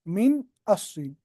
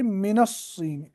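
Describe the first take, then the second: First: The n closes min, then the next word starts. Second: The n links to the next word with an a. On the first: This is the underlying original form. "वरना असल में था" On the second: This is the form actually used before the article. "इसके ऊपर फतह देते, बनता है"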